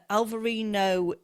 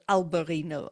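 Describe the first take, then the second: First: The second consonant is pronounced as a 'v'. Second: The second consonant is pronounced as a 'b'. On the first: This is the Portuguese name of the grape. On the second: This is the Spanish name of the grape.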